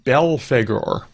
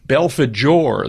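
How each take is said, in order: First: The g is said as a hard g. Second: The g is said like a j. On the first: The speaker calls it wrong. "You're not pronouncing correctly" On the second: The speaker calls it right. "The G is J"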